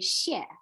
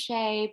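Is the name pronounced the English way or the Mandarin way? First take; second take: Mandarin; English. First: The name is said with a Mandarin pronunciation. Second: The name is said with an anglicized pronunciation. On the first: The speaker calls it right. "the proper way to say it is Xie" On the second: The speaker calls it wrong. "but it's really not pronounced that way"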